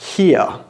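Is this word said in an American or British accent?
British. Two vowel sounds with no R at the end. "But in British English, he, er, here"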